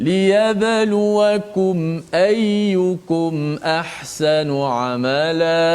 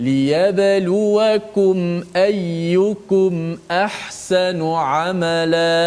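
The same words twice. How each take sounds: Both takes have the same delivery.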